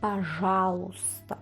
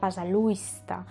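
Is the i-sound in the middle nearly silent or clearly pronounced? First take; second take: nearly silent; pronounced. First: The i-sound in the middle is nearly silent. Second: The i-sound in the middle is clearly pronounced. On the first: The speaker calls it right. "pero no es así, es" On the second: The speaker calls it wrong. "Que sería como si lo leyésemos eh, realmente la palabra, sonaría"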